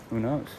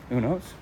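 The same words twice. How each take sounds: The two takes are said the same way.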